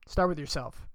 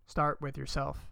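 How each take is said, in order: First: Said in the usual way. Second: Softer and slower, letting it sink in; soft repeat. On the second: Acted. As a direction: say it again gently and slow. Repeats advice, second time softer.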